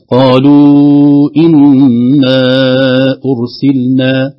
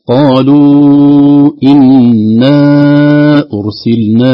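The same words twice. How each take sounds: First: إنا held slowly then أرسلنا with only a natural vowel length; natural madd on stop. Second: قالوا drawn out very long and loud before a pause; wrong stretched madd. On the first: Teacher showing the correct stop, natural madd. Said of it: "أرسلنا مد طبيعي". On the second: Teacher imitating a mistaken reciter, slow stretched madd. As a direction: drag the vowel of قالوا as if the madd applied while stopping. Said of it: "وقف عليه ومده". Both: Shown as a demonstration.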